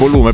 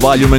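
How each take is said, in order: First: The word is pronounced with Italian sounds. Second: The word is pronounced with English sounds.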